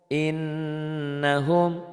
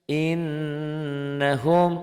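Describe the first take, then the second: Both takes have the same delivery.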